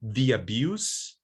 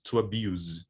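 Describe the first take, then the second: First: "the abuse" ending in a hissed s; voiceless noun ending. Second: "to abuse" ending in a buzzed z; voiced verb ending. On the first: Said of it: "it's voiceless". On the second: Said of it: "it's voiced". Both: Shown as a demonstration.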